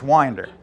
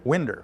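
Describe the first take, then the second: First: It does not sound like saying 'window'. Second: It sounds like a dialect way of saying 'window'. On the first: The speaker calls it right. "But it's it, it's Winder" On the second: The speaker calls it wrong. "I always pronounced it Winder. ... sort of like my mother pronounced the little square things in the side of the house"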